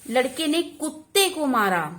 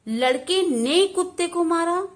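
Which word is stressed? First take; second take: कुत्ते; लड़के. First: The stress falls on the word कुत्ते. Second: The stress falls on the word लड़के. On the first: It was the dog, poor thing, that got hit. "यहां पर बल किस पे आया? कुत्ते को मारा" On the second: The boy is the one to blame. "लड़के ने पर विशेष बल दिया हमने"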